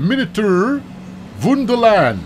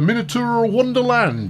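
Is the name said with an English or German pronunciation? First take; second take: German; English. First: The name is said with German pronunciation. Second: The name is said with English pronunciation. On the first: The speaker calls it right. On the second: The speaker calls it wrong.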